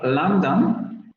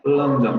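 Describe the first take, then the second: First: It is said with the standard vowel. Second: It is said with a close-mid northern vowel. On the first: "En lugar de decir" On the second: "los del norte dirían"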